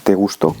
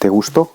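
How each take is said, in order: First: The stress is on the last syllable of gusto. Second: The stress is on the last syllable of gusto.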